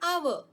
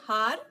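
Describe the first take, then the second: First: The word begins with a silent h. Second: The word begins with a sounded h. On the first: The speaker calls it right. "we say hour" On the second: The speaker calls it wrong. "We do not say har"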